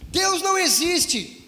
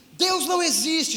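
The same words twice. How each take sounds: First: Imitated tearful plea, higher and slow; retold crying, pleading. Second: Lightly imitated tearful cry, higher; a touch of a sob, imitating the girl; retold crying. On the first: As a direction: draw it out like a mild mock sob. (choro imitado, agudo e lento) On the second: (imitando choro leve, mais agudo)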